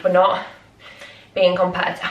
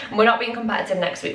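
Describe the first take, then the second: First: Breathless, words in bursts; out of breath. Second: Said in the usual way. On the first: Real, not acted. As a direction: talk while catching breath. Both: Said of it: "I'm so out of breath".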